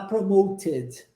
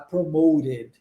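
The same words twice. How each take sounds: First: It is said with a British accent. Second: It is said with an American accent.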